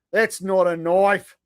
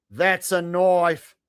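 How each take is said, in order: First: Slow hammed-up Aussie, "That's not a knife" drawn out; mock Australian accent. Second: Very slow Aussie punchline, "That's a knife" falling at the end; mock Australian accent. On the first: Streamer quoting Crocodile Dundee in a mock Australian accent. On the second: Streamer finishing the Crocodile Dundee quote in a mock Australian accent. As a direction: land "That's a knife" as the fake Australian payoff. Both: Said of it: "speaking your native tongue".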